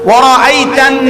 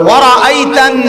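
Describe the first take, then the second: The two takes are said the same way.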